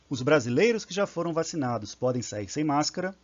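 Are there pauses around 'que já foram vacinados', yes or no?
no. It is said without pauses around the clause.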